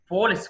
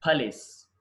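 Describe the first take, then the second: First: పోలీస్ with a long "po"; wrong pronunciation. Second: పోలీస్ with a short "puh" first; correct pronunciation. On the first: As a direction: say పోలీస్ as "POH-lis". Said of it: "కాదండి అది". (పోలీస్ మొదట "పో" అని తప్పుగా) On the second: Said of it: "పోలీస్ కాదండి". (పోలీస్ "పలీస్" అని) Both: Shown as a demonstration.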